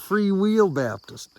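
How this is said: The middle word is stretched to sound like 'wheel'.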